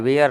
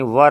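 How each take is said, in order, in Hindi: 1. यह लंबी ध्वनि के साथ बोला जाता है, fair की तरह। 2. यह एक छोटे, एक अक्षर वाले उच्चारण की तरह बोला जाता है, fur की तरह। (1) "वेयर नहीं होता है... जो कि गलत है" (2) "व और र में हलंत यानी वर होता है"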